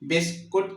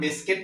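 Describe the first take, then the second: First: The second syllable has an 'oo' vowel. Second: The second syllable has an 'i' vowel. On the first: The speaker calls it wrong. "बिस्कुट की बजाय" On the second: The speaker calls it right. "हम बिस्किट पढ़ते हैं"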